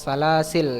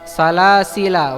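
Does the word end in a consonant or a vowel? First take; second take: consonant; vowel. First: The word ends on a consonant sound. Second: The word ends with a final vowel sound. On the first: "membuang alif ya, sehingga berubah menjadi lam sukun" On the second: "menetapkan alif"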